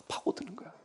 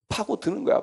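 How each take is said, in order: First: Hushed, breathy whisper of burrowing in. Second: Said in the usual way. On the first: Acted. Preacher whispering to congregation how a child burrows in. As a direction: drop to a whisper, almost secret.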